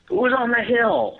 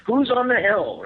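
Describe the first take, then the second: First: High, slow call into the dark; imitating Matt calling up the hill. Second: High, loud repeated call; calling up the hill once more; Matt calling again. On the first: Friend on night hunt calls out to someone unseen, high and loud. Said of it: "I hear Matt going". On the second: Retold or imitated. Matt shouting again at an unseen hill figure, high and loud. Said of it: "Matt saying something".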